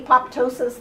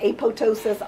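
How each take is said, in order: First: The second P sound is clearly pronounced. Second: The second P sound is left silent. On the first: This is the original Greek way of saying it. "The Greeks say apoptosis" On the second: This is how most of the world says it. "the P is silent"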